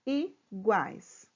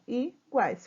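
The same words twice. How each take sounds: First: Said in the usual way. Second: Iguais said in syllables, i-guais; split into syllables. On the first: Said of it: "Vou fazer a separação de sílaba". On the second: Shown as a demonstration. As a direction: break Iguais into two syllables. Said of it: "Vou fazer aqui a separação".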